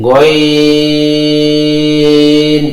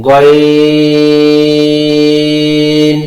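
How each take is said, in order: No difference in how they are said.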